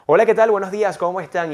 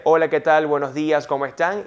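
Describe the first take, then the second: First: Hola, ¿qué tal? louder and higher, full of pitch movement; animated radio greeting; lively greeting. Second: Said in the usual way. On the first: Shown as a demonstration. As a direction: read the greeting with bright inflections. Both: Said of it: "Y luego va a decir".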